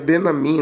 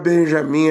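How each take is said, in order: First: The name is said without a J sound. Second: The name is said with a J sound. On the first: The speaker calls it right. "é Benamim" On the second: The speaker calls it wrong. "o hebraico não tem J"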